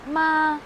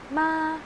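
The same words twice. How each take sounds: First: It is said in the first tone. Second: The same.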